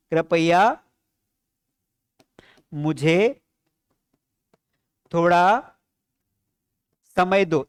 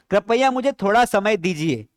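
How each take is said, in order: First: Each word set apart by long pauses; slow, pause after each word. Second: Said in the usual way. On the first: Shown as a demonstration. Teacher breaking कृपया मुझे थोड़ा समय दो into words with long pauses. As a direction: lay the phrase out word by word, pausing between. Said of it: "इसको कैसे बोलेंगे?". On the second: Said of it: "हम कई बार बोलते हैं".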